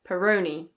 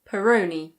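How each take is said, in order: First: It is said in a British English accent. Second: The same.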